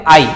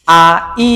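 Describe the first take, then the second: First: আই run together as one syllable; joined vowels. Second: আ, ই as two separate sounds; separated vowels. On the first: Teacher giving the correct reading, আই joined smoothly. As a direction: glide from আ straight into ই in আই. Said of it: "কি বলতে হবে?". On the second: Teacher showing students what to avoid, আ and ই split. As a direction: pause between আ and ই. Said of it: "এভাবে বলা যাবে না". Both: Shown as a demonstration.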